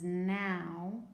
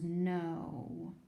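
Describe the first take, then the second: First: "now" with ow as in cow, drawn out; ow sound. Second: "no" with a long O as in snow, drawn out; silent K, long O. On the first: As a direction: say "now" slowly to rhyme with cow. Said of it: "This one is now". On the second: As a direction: say "no" slowly to rhyme with snow. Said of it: "When you put a K on it". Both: Shown as a demonstration.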